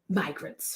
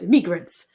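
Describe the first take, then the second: First: It is said in a plain American accent. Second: It is said in a put-on French accent.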